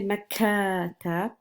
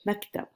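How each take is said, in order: First: An a vowel is inserted after the k. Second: The k is followed directly by t, no vowel. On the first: The speaker calls it wrong. "I'm not going to say makatab" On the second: The speaker calls it right. "the kaf here does not have any short vowel"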